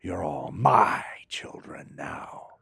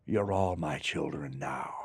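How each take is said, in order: First: Put-on "You're all my children now" breathed slowly in a whisper, a weight on "my"; slow whisper, the way the line should have gone; whispered menace. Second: Put-on low, slow and soft, "You're all my children now" intoned like a god; grand villain declaration. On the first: Actor showing how the line should have been said: slow whisper. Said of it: "It should have been". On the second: Actor recalling how he said the line in the movie: low, slow declaration. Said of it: "Well, that's wrong". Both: Shown as a demonstration.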